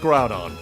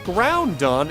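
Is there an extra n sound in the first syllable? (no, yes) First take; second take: no; yes. First: No extra n sound is in the first syllable. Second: An extra n sound is in the first syllable. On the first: The speaker calls it right. "It's Groudon. There's there's no N" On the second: The speaker calls it wrong. "I believe I always pronounce this Pokemon's name as Groudon"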